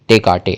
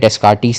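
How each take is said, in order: First: The s sounds are left silent in the name. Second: The s sounds are pronounced in the name. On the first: The speaker calls it right. "डेकार्टे है" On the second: The speaker calls it wrong. "डेस्कार्टीस नहीं है"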